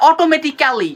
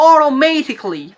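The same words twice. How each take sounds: First: অটোমেটিক্যালি as "o-to-me-ti-ka-li"; hard t's and full "ka-li" in অটোমেটিক্যালি; wrong pronunciation. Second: অটোমেটিক্যালি as "o-ro-MAY-tik-li"; correct pronunciation. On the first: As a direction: spell out every syllable of অটোমেটিক্যালি. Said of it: "আজকের পর থেকে বলবেন না". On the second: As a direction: swallow the "ka" in অটোমেটিক্যালি. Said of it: "আপনারা বলবেন". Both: Shown as a demonstration.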